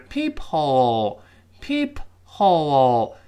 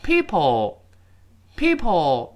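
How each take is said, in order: First: Slow reading. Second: PEEPHOLE run together like "people"; linked, H dropped. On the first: Teacher showing the slow form, syllables apart. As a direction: PEEP and HOLE drawn out with a clear H. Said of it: "我们读慢的情况下". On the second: Teacher showing the fast form, linked. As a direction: drop the H, PEEP sliding into "ole". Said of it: "但是你读快之后". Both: Shown as a demonstration.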